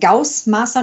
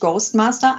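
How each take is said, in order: First: The first part sounds like 'gauss'. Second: The first part sounds like 'ghost'. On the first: The speaker calls it right. "Ein Ghostmaster" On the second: The speaker calls it wrong. "nicht Ghostmaster, das sagen nämlich viele"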